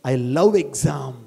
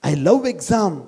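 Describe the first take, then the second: First: Very slow and softer; slow soft affirmation. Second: Said in the usual way. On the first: Shown as a demonstration. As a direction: savour "I love exam" slowly. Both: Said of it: "repeated motto".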